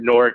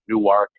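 First: It is said as one syllable, like Nork. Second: It is said as two syllables, New-ark. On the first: The speaker is a local from there. "We pronounce it Newark, N-O-R-K" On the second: The speaker is not a local from there. "Everyone else pronounces it Newark"

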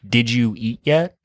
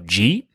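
First: Each word is said slowly and separately. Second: The words are run together, Michigan style.

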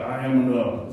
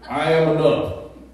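First: It is said weakly, without conviction. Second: It is said firmly, with conviction.

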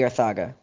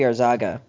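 First: The middle consonant is a th sound. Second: The middle consonant is a z-like sound. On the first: The name is read as Spanish. "if it's Spanish, it would be Arthaga" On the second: The name is read as Dominican rather than Spanish. "It's not Spanish, so it might be Arzaga"

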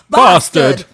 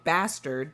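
First: The word is said in a non-American accent. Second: The word is said in an American accent. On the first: The speaker calls it wrong. "he says bastard" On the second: The speaker calls it right. "like we would say in the US"

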